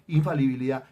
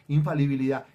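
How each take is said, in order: The two takes are said the same way.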